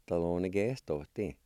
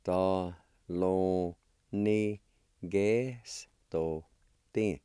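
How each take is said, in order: First: Said in the usual way. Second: Very slow, long gaps between syllables; teacher's careful syllable demo. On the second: Shown as a demonstration. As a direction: stretch "Thalonigestotin" out piece by piece. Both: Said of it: "It's pronounced like this".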